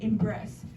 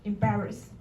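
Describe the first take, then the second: First: The word sounds like 'embrace'. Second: The word sounds like 'embarrass'. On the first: The speaker calls it wrong. "You s- you say um" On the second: The speaker calls it right. "I think the word is pronounced in embarrass"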